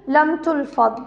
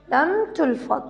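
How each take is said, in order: Both takes have the same delivery.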